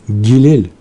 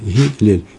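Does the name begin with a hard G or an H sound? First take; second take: G sound; H sound. First: The name begins with a hard G sound. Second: The name begins with a soft H sound. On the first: The speaker calls it wrong. "Не Гилель ... Только не говорите Г" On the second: The speaker calls it right. "а Гилель"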